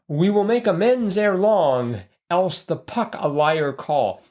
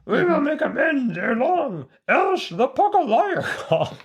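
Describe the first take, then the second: First: It is said in the speaker's ordinary voice. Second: It is said in a put-on character voice.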